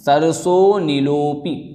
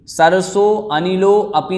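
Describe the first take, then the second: First: The last words are merged into one joined word. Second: The last words are said separately, unjoined. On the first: The speaker calls it right. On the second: The speaker calls it wrong.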